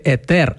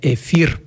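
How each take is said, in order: First: The middle consonant is pronounced as t. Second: The middle consonant is pronounced as f. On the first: The speaker calls it right. "правильно казати етер" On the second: The speaker calls it wrong. "а не ефір"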